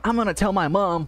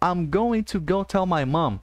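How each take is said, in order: First: The words are said fast and run together. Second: Each word is said separately and clearly.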